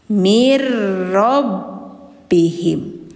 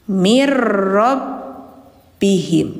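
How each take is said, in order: Both takes have the same delivery.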